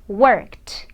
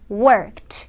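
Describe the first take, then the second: First: The ending is a voiceless t sound. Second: The same.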